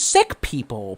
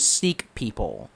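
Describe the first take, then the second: First: The first word sounds like 'sick'. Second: The first word does not sound like 'sick'.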